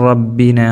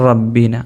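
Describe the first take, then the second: No difference in how they are said.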